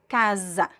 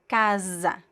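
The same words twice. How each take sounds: First: The middle consonant is a voiced z sound. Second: The same.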